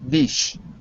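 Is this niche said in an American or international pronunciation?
international. The word is said with an international pronunciation. "In international English, it's the way the word should be pronounced"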